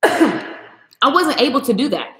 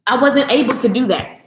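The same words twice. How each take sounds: First: Slow, every word weighed on wasn't; slow, heavy repeat for emphasis; slow emphatic repeat. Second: Said in the usual way. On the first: Real, not acted. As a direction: lean hard on wasn't and slow right down.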